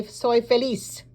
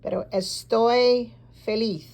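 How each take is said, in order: First: "feliz" ending on a plain hissed S, like the locals; Spanish "feliz" the local way, final S; local S sound. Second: Spanish "feliz" with the Spain lisp; Castilian lisped Z. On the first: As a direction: say "feliz" with an S at the end, not a lisp. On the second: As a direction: say "feliz" with a TH sound at the end. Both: Shown as a demonstration. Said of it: "has an S sound for them".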